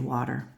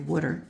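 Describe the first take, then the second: First: It is said with a general American accent. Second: It is said with a Philadelphia accent.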